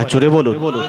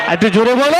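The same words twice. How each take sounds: First: Said in the usual way. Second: Higher, rising crowd call; rousing call-out. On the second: Real, not acted. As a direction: call out to the crowd, lifting the last word. Urges crowd to answer louder.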